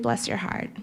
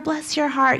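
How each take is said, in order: First: It is said sarcastically and with disdain. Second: It is said warmly and affectionately.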